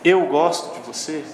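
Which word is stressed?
eu. The word eu carries the emphasis. It points to who is doing the liking. "se é eu, você está dizendo que, que é com você"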